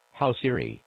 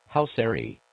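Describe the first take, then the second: No difference in how they are said.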